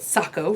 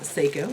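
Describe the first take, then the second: First: The name rhymes with taco. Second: The name does not rhyme with taco. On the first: The speaker calls it right. "Sako rhymes with taco" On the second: The speaker calls it wrong. "it's not Seiko, as I originally said"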